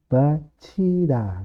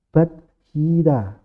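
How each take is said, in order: First: It is said with a ch sound in the middle. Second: It is said with a d then h sound.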